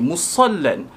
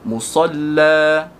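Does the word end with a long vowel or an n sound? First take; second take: n sound; long vowel. First: The word ends with a short vowel and n. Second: The word ends with a long vowel, no n. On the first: The reading continues into the next word. "hudan dua baris" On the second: The reading stops at this word. "disebut huda, jadi dua harakat"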